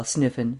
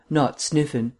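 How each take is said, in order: First: Said in the usual way. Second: "not" leaned on, falling off on "Sniffen"; mild corrective stress on "not". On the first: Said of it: "The gastronome's name is Snitkin". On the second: Acted. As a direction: correct him, hitting "not". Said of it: "Vance corrected him".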